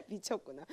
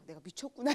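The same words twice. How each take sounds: First: 미쳤구나 said through laughter; louder, higher laughing 미쳤구나. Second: Said in the usual way. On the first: Real, not acted. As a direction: laugh while saying 미쳤구나.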